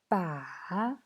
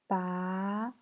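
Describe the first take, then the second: First: The pitch dips low and then rises. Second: The pitch rises from middle to high. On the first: "Troisième temps" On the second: "Deuxième temps"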